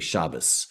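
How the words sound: The word ends with an s sound.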